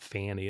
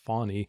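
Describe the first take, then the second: First: The first vowel sounds like the one in 'fan'. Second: The first vowel sounds like the one in 'fawn'. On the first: The speaker calls it wrong. "but not Fanny" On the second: The speaker calls it right. "which is the correct pronunciation they note in that article, like a fawn, like a deer"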